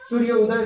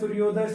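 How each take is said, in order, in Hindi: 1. दोनों शब्द अलग-अलग और धीरे-धीरे बोले जाते हैं। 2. दोनों शब्द जल्दी-जल्दी बोले जाते हैं, मिलाकर एक शब्द बनाते हुए।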